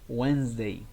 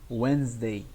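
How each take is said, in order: No difference in how they are said.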